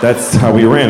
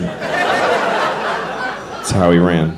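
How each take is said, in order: First: Said in the usual way. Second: Whispered very slowly, "That's how he ran." drawn out; slow unvoiced whisper. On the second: Shown as a demonstration. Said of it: "It's an apt description".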